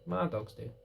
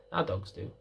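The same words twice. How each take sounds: First: "my" pressed down lightly, falling; stress on my. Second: "our" pressed down, lower and softer; stress on our. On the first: Trainer correcting herself about whose dogs, stressed "my". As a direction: owner naming her own dogs, stress on "my". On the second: Trainer correcting herself to shared dogs, stressed "our". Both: Real, not acted.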